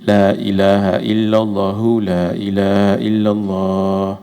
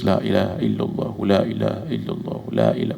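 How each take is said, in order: First: It stops with a pause after two phrases. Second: It runs on without stopping after two phrases. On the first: "Berhenti. ... Dua-dua tu yang paling bagus. Nah, itu lebih sedap" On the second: "kalau nak terus"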